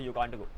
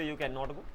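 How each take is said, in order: First: The negative is shortened into one contracted word. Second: The negative is said as two full words. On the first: "short कर सकते हो" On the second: "कैन नॉट को ऐसे बोलोगे"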